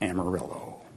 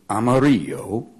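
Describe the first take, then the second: First: It is said with an English pronunciation. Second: It is said with a Spanish pronunciation. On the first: It is the common local mispronunciation. The speaker calls it wrong. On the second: It is the original word meaning yellow. The speaker calls it right.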